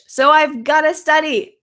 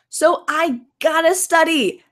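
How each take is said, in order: First: The phrase is said in full, "I've got to". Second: The phrase is reduced to "gotta". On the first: "We could I've got to study" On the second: "or we can cut it out"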